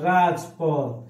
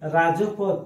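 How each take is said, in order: First: No vowel is heard after 'raj'. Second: An 'o' vowel is heard after 'raj'. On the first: The speaker calls it right. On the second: The speaker calls it wrong.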